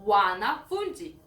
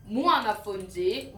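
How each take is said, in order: First: Wanafunzi opening on wa, with no m; plain w- at the start. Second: Mwanafunzi with m gliding into wa; mw- at the start. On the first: Teacher giving the other form, the plural, w- at the start. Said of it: "Another one". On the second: Teacher contrasting one student with many, mw- at the start. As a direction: sound the m before the w in "mwanafunzi". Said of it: "one student". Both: Shown as a demonstration.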